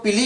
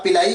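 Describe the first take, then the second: First: पिली said as "pi-lee"; पिली as "pi-lee", without the "ai" sound; alternative pronunciation. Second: पिलाई said as "pi-lai-ee"; पिलाई as "pi-LAI", with the "ai" sound; preferred pronunciation. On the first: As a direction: say पिली with two syllables, ending in a long ee. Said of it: "कुछ लोग पिली भी कहते हैं". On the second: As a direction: say पिलाई with an "ai" glide before the final ee. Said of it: "आप पिलाई कहें वो भी सही है". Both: Shown as a demonstration.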